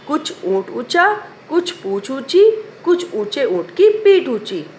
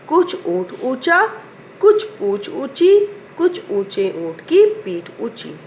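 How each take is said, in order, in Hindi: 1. यह पंक्ति जल्दी-जल्दी, हड़बड़ी में कही गई है। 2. यह पंक्ति सामान्य गति से कही गई है।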